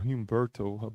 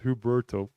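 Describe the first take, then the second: First: The name has an m sound after the first vowel. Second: The name has no m sound after the first vowel. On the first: The speaker calls it wrong. "I keep saying Humberto" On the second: The speaker calls it right. "it's just Huberto"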